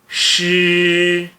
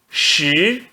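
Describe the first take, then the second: First: The pitch stays high and level. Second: The pitch rises from mid to high. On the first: "S H I no primeiro tom fica X" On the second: "No segundo tom"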